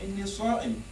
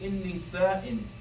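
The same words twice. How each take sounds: First: The s sound is heavy and emphatic. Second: The s sound is light and plain. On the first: The speaker is fasting. The speaker calls it right. "You say, oh God, I'm fasting" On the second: The speaker is bored. The speaker calls it wrong. "you're actually saying I'm bored"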